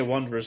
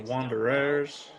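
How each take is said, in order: First: The word is said at a normal quick pace. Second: The word is dragged out slowly. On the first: The speaker calls it wrong. "they wouldn't say Wanderers like that" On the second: The speaker calls it right. "Just drag it out, make it slow"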